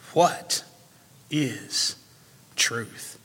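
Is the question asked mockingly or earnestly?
earnestly. It is asked in an eager, earnest tone.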